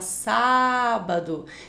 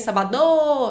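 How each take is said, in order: First: The stress falls on the first syllable. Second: The stress falls on a later syllable. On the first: The speaker calls it right. "você fala sábado" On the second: The speaker calls it wrong. "Você não fala sabado e nem sabadô"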